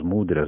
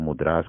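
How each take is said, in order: First: The word is pronounced the usual Portuguese way. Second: The word is pronounced the Indian way.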